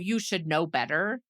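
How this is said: It sounds scornful and demeaning. The remark is meant to belittle someone. The speaker calls it wrong. "Like that's the tone"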